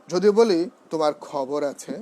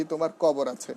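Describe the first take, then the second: First: খবর said with a strong breathy খ; aspirated kha. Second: কবর said with a light, unbreathed ক; the wrong, unaspirated কবর. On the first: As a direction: puff the খ in খবর. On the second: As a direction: drop the breath so খবর becomes কবর. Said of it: "ওই খ না বলতে পারি". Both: Shown as a demonstration.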